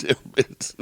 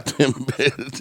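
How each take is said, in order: First: Whispering the pun; breathy whispered repeat. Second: Said in the usual way. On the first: Shown as a demonstration.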